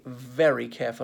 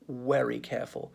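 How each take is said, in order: First: 'Very' begins with a V sound. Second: 'Very' begins with a W sound. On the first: The speaker calls it right. "We must be very careful about that" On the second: The speaker calls it wrong. "and certainly not very careful"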